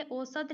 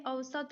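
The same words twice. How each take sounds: First: "औसत" opened with a pure o, o-sat; wrong form osat. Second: "औसत" opened with an au glide, au-sat; correct form ausat. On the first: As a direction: say "औसत" with o in place of au. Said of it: "औसत नहीं होता है". ("औसत" को ओ-सत बोलें) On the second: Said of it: "औसत होता है". ("औसत" में शुरू का औ साफ़ बोलें) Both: Shown as a demonstration.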